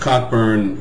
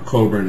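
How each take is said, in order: First: The name is said in a non-British way. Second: The name is said the British way.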